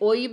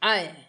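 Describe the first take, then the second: First: The vowel starts with an o sound. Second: The vowel starts with an a sound. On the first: This is the Bengali pronunciation. "বাংলায় ওই বলে" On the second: This is the Hindi pronunciation. "Hindi में আয়"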